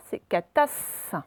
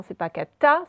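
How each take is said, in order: First: "catas" lent avec le S final appuyé; S bien marqué. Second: "cata" sans le S final; prononciation fautive. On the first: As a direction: insister sur le S de "catas". (faire bien entendre le S de "catas") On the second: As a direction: montrer l'oubli du S dans "cata". (dire "cata" coupé net) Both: Shown as a demonstration.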